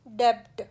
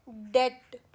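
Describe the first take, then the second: First: डेब्ट with the b sounded; wrong pronunciation. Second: डेट with a silent b; correct pronunciation. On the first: Teacher showing the wrong डेब्ट. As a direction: mistaken डेब्ट with a clear b. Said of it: "ना कि". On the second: Teacher giving the correct डेट. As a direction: say डेट plainly, no b sound. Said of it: "बी silent है". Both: Shown as a demonstration.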